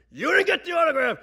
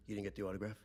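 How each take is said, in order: First: High, full-volume outraged scream. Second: Low, soft, stunned question; quiet disbelief. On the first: Father screaming at Uncle Frank over the autograph, outraged. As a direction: explode like a furious father. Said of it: "they start screaming at each other". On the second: Father questioning shaken Uncle Frank, quietly incredulous. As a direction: imitate a father asking in muted disbelief. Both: Retold or imitated.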